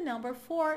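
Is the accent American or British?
American. It is said with an American accent. "no americano"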